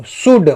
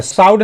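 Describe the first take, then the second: First: शुड with a short oo vowel; correct short "oo". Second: साउड with an ow diphthong, pitched up; wrong "ow" reading. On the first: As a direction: say शुड with a plain u, no diphthong. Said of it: "शुड बोल रहे हैं". (शुड में छोटे उ का उच्चारण) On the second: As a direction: misread the word as साउड, with ah-oo inside. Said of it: "साउड नहीं बोल रहे हैं". (साउड: उ की जगह आउ वाला गलत उच्चारण) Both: Shown as a demonstration.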